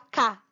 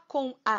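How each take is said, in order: First: The two words merge into one syllable. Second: The two words are said as separate syllables. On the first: The speaker calls it right. "a gente fala cá" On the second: The speaker calls it wrong. "a gente não fala com a"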